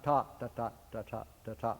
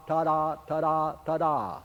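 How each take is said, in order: First: "ta ta" as an even triplet-like pattern; wrong six-eight demo. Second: "ta da" with a long ta and a short da; dotted ta da. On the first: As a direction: show the wrong "ta, ta ta" rhythm softly. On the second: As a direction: demo the dotted "ta da, ta da" rhythm. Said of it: "the articulation becomes". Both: Shown as a demonstration.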